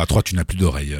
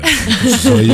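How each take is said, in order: First: Lower, softer hypnotist intoning; playful low hypnotist voice; mock hypnotist. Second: Teasing stage hypnotist, raised; mock hypnotist command. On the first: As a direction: put her under like a stage hypnotist. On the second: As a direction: snap the command out like a showman.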